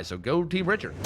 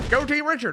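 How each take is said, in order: First: Said in the usual way. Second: High, louder rallying cheer; excited cheer. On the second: Acted. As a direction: cheer them on, pitched way up. Cheering on a team.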